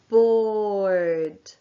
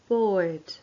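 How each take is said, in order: First: The word is said slowly. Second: The word is said quietly.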